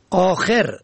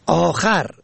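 First: آخر said "aa-KHER"; kasra on second syllable. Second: آخر said "aa-KHAR"; fatha on second syllable. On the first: Presenter contrasting two readings, آخر as "aakher". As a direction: end آخر with short e before r. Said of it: "به کسر دوم". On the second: Presenter contrasting two readings, آخر as "aakhar". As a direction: end آخر with short a before r. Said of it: "به فتح دوم". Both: Shown as a demonstration.

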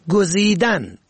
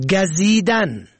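First: گزیدن said "gozidan"; damma on first syllable. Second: گزیدن said "gazidan"; fatha on first syllable. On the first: Presenter teaching the verb for choosing, گزیدن as "gozidan". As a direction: open گزیدن with short o or u. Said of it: "به ضم اول". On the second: Presenter teaching the verb for stinging, گزیدن as "gazidan". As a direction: open گزیدن with short a. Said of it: "به فتح اول". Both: Shown as a demonstration.

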